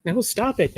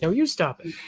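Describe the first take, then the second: First: Said in the usual way. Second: "you" stressed in "No, you stop it". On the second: Real, not acted. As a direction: lean on "you" to throw it back. Turning the joke back on them.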